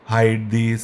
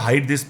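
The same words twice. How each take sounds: First: It is said flatly, with little energy. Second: It is said lively, with much energy. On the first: The speaker calls it wrong. "ऐसे ऐसे नहीं बोलना है जैसे मरे हुए लगे या फ्लैट लगे" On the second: The speaker calls it right. "जान लाओ आपके वर्ड्स में या बोलने के तरीके में"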